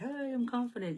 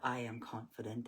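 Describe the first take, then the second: First: It is said in a scared, shaky way. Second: It is said in a plain, steady way.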